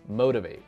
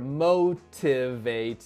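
First: The middle T is a quick flap. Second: The middle T is a clear T. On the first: "我作为美国人呢我怎么说呢？... 我们就发成一个闪音" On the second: "所以他说的是motivate"

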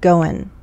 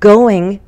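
First: The final g sound is dropped. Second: The final g sound is pronounced.

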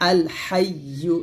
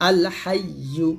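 The two takes are said the same way.

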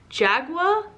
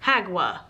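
First: The word begins with a J sound. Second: The word begins with an H sound.

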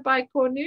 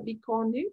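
First: It is pronounced with an English accent. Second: It is pronounced with a French accent.

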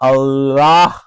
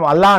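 First: The name ends with a breathy h sound. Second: The name ends plainly with no h sound. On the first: The speaker calls it right. "హ హ అనే సౌండ్, అల్లాహ్ nasal sound" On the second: The speaker calls it wrong. "మనం అల్లా అంటాం, అల్లా కాదు"

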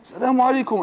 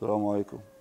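First: The greeting sounds warm and cheerful. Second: The greeting sounds reluctant and disgusted. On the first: The person is happy to come home. The speaker calls it right. "Là, oui, salam alaikum" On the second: The person is unhappy to come home. The speaker calls it wrong. "Il est dégoûté de rentrer chez lui en fait"

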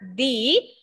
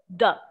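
First: The word ends in a long 'ee' vowel. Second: The word ends in a short 'uh' vowel. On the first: The next word begins with a vowel. "When there is a vowel here, the T-H-E will be D. We will sound it as D" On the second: The next word does not begin with a vowel. "And if there is no vowel, then it is the"

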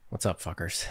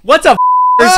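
First: It is said in a sad tone, with a sigh. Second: It is said in a cheerful, upbeat tone.

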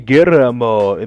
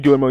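First: The name is pronounced the Spanish way. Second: The name is pronounced the English way. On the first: The speaker calls it right. "you say Guillermo, because it's Spanish" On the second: The speaker calls it wrong. "You don't say Guillermo"

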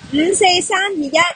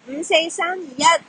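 First: The voice sounds somewhat distant. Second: The voice sounds clear and close. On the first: The speaker calls it wrong. "AirPods 3 嘅人声咧，听落就有啲远" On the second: The speaker calls it right. "AirPods Pro 反而系三只耳机之中最清晰"

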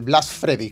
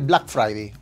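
First: The second word starts with the sound of 'Fred'. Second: The second word starts with the sound of 'fry'.

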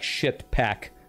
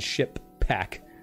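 First: The P in pack is soft and light. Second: The P in pack is hard and forceful. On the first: "if you don't hit the P so hard, that would make it sound more like ship pack" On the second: "rather than ship pack"

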